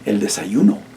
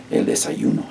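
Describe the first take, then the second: First: Said in the usual way. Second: Whispered model word, "El desayuno" breathed; whispered repeat. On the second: Shown as a demonstration. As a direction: whisper "El desayuno" for the class to echo. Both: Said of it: "¿cómo se dice breakfast en español?".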